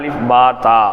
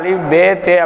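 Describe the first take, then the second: First: The letter names end in an 'a' vowel. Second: The letter names end in an 'e' vowel. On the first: The speaker calls it right. "இரண்டுக்கும் நடுத்தரமான ஒரு வடிவத்தில்" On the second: The speaker calls it wrong. "அது முற்றிலும் தவறாக மாறிடுது"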